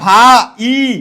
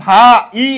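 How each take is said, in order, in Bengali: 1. শব্দটি দুটি আলাদা অংশে ভাগ হয়। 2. শব্দটি দুটি আলাদা অংশে ভাগ হয়।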